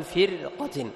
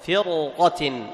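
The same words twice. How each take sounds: First: فرقة with a thin, light ra; thin ra, wrong. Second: فرقة with the ra thick and emphatic, drawn out; heavy ra. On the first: Teacher shows the wrong thin ra in فرقة. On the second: Teacher models the correct heavy ra in فرقة. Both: Shown as a demonstration. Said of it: "ولا تقول فرقة".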